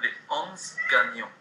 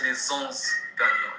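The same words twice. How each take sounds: First: No linking sound between 'les' and 'onze'. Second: A z sound links 'les' to 'onze'. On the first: The speaker calls it right. "On ne fait pas une liaison" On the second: The speaker calls it wrong. "On ne peut pas prononcer"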